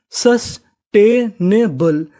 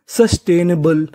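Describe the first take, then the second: First: "सस्टेनेबल" very slowly, with gaps between syllables; broken into pieces. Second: Said in the usual way. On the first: Shown as a demonstration. Teacher assembling the word for learners, "सस्टेनेबल" slowly piece by piece. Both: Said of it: "टुकड़ों में तोड़ तोड़ के पढ़िए".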